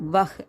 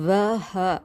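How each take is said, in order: First: The word ends on the h sound, no vowel. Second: The word ends with a short vowel after h. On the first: This is how the word is actually pronounced. The speaker calls it right. "வஹ் அப்படின்னு நம்ம உச்சரிக்கணும் ஆக்சுவலாக" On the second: This is how the word is written. The speaker calls it wrong. "வஹ அப்படின்னு இருக்கிறது"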